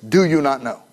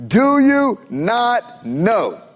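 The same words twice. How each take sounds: First: Said in the usual way. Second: Slow, drawn out, pressing; slow emphatic question. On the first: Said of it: "that precedes this phrase". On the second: Acted. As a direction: lean hard on each word. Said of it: "uses it emphatically".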